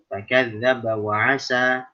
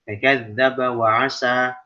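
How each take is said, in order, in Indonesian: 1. Bunyi s pada kata terakhir tipis. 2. Bunyi s pada kata terakhir tipis.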